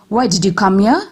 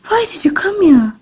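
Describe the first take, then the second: First: The voice sounds angry and harsh. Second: The voice sounds frightened and fearful. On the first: "This shows an angry tone of voice" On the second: "This shows a frightened tone of voice"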